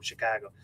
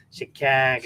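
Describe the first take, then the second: First: Said in the usual way. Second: Chicago with a flattened Midwestern "a", as in "cag"; demonstrating the Midwestern "Chicago" with a fronted vowel; Midwestern accent. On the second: Shown as a demonstration. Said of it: "we sound very nasally".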